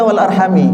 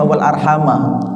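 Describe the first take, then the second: First: The last word ends in an i vowel. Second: The last word ends in an a vowel. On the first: This is a different transmitted reading. "ada yang baca wal arhami" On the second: This is the usual reading. "Itu terakhirnya dibaca fathah"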